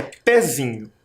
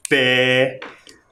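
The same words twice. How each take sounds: First: Said in the usual way. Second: Pezinho split PE, ZI, NHO with pauses; syllable by syllable. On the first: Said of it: "Próxima palavra é". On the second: Shown as a demonstration. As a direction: stretch each syllable of Pezinho alone. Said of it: "Separamos em três sílabas". (Pezinho separado em sílabas, devagar)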